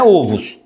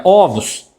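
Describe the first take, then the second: First: "ovos" with a closed first o, as in ovo; plural errado de ovo. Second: "ovos" with an open first o, Ó-vos; plural correto de ovo. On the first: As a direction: keep the first vowel of "ovos" closed, Ô-vos. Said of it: "não é ovos". ("ovos" com o fechado, ôvos) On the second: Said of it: "é ovos". ("ovos" com o aberto, óvos) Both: Shown as a demonstration.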